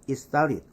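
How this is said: The sounds are reduced and run together. This is how native speakers say it. The speaker calls it right. "원어민은"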